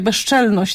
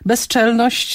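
First: The middle consonants merge into a sh-like sound. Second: The middle consonants are pronounced separately and clearly. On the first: This is casual everyday speech. "Takie upodobnienie następuje, to w mowie potocznej to występuje" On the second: This is careful standard speech. "jest poprawne"

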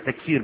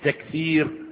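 First: The middle consonant is an s sound. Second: The middle consonant is a t sound. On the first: The speaker calls it right. "بالسين مش بالتاء" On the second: The speaker calls it wrong. "مش تكسير"

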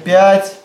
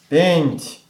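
First: The vowel is plain and oral, with no nasal sound. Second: The vowel is nasal, with a nasal sound before t. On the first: This is the modern way of saying it. "сейчас мы говорим «пять»" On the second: This is the old way of saying it. "по-древнерусски это было «пенть»"

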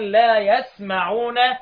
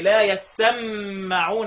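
First: The s and m sounds are short and single. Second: The s and m sounds are doubled and held. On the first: "بالتخفيف في الموضعين" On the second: "يقولوا بثقليه"

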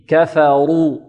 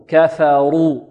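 The two takes are said the same way.

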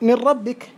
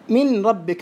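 First: The n merges completely into the following r. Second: The n is pronounced clearly before the r. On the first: The speaker calls it right. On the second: The speaker calls it wrong.

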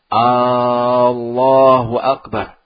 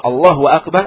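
First: The opening vowel is drawn out long. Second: The opening vowel is kept short. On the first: The speaker calls it wrong. "Sebagian ada yang memanjangkan A-nya" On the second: The speaker calls it right. "artinya Allah Maha Besar"

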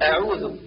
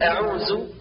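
First: The word ends with a voiced th sound. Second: The word ends with a z sound. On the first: The speaker calls it right. "والصواب" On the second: The speaker calls it wrong. "كالنطق بالذال زايا"

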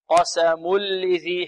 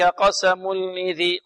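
First: The n merges fully into a clean l sound. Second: A trace of nasal n sounds before the l. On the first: The speaker calls it right. "يصير التنوين لاما خالصة" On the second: The speaker calls it wrong. "البعض ربما يأتي برائحة النون يقول هكذا"

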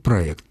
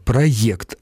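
First: The second syllable is a hard 'ekt'. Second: The second syllable is a soft 'yekt'. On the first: The speaker calls it wrong. "а не через «э»" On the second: The speaker calls it right. "через «е»"

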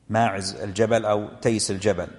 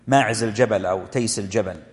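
The two takes are said the same way.

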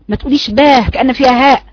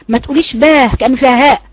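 No difference in how they are said.

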